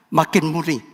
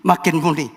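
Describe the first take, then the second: No difference in how they are said.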